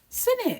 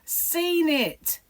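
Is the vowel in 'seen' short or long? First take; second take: short; long. First: It has the Kent short vowel, like 'sin'. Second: It has a long vowel, like 'seen'.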